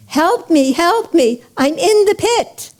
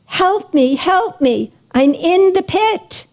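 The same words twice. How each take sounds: First: High, urgent plea, rising in pitch; a storyteller's pressing, high-pitched cry; urgent cry for help. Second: A storyteller's mild cry for help; calling out for help. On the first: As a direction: call out urgently from the pit, without really shouting. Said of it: "calls out with more urgency". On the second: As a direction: call up out of a pit, pitch rising at the end. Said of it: "the man calls out". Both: A narrator's reading.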